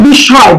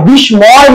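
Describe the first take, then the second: First: বিস্ময় said as bisshoy, the ম silent and the স doubled; correct pronunciation. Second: বিস্ময় said as bis-moy, with the m sounded; wrong pronunciation. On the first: Teacher giving students the correct form, m silent. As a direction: model বিস্ময় the right way, without the m. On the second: Teacher showing students the form to avoid, m sounded. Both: Shown as a demonstration. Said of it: "এটা কিন্তু বিস্ময়, বিস্ময় না".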